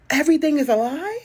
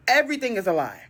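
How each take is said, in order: First: Incredulous question. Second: Said in the usual way. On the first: Real, not acted. Disbelief, repeated.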